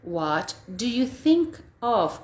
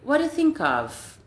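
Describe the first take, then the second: First: It is said slowly with the words kept apart. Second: It is said fast with the words run together.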